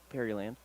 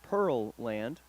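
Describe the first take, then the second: First: The name is said with three syllables. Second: The name is said with two syllables. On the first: The speaker calls it wrong. "not Pearyland" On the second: The speaker calls it right. "it's Pearl Land"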